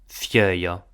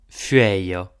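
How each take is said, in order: First: The first vowel is a plain e sound. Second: The first vowel is a ue sound. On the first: This is the Rhodanian Provençal form. "en rudanês, la même cause si dis e" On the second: This is the Maritime Provençal form. "En maritime, acò si dis ue"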